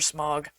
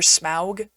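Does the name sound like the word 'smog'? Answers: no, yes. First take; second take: yes; no. First: The name sounds like the word 'smog'. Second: The vowel differs from the one in 'smog'. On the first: This is the speaker's preferred way to say the name. "I prefer Smog" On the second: This is how the films say the name. "is how they pronounced it in the movies"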